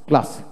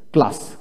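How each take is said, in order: Both takes have the same delivery.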